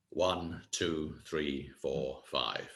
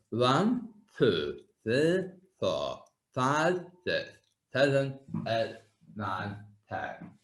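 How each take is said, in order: First: Said in the usual way. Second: Counting with the tongue pushed out; tongue stuck out. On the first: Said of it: "you can hear the difference in the voice". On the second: Shown as a demonstration. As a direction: count aloud with your tongue stuck right out. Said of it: "stick my tongue out and try to count".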